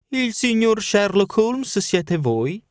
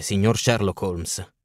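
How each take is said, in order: First: Put-on high, slow, ironic old woman's question; old housekeeper. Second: Slow, low-voiced stranger's greeting; passer-by voice. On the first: Old housekeeper greeting Holmes on the steps, high and ironic. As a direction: peer at him like a sly old maid. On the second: Young stranger greeting Holmes at his door, slow and low. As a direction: drawl it out like a passing young man.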